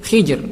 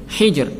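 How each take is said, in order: No difference in how they are said.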